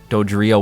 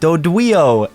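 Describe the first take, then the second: First: The word is pronounced in the ordinary way. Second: The word is pronounced with a childlike speech impediment.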